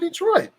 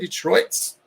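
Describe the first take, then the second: First: The word ends without an added s sound. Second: The word ends with an added s sound. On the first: The speaker calls it right. "You say Detroit" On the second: The speaker calls it wrong. "You don't say Detroit's"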